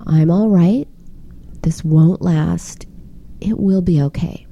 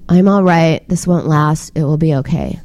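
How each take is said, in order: First: Kind, soothing voice, slowing down on "This won't last"; gentle comfort for someone who just messed up; warm, reassuring. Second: Cold monotone with no feeling in it; reassuring words said with zero comfort; flat, unemotional. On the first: Shown as a demonstration. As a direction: say it like a verbal hug. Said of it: "a tone that was kind and warm and reassuring". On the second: Retold or imitated. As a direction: rattle it off like a shopping list. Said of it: "in a very flat, unemotional tone".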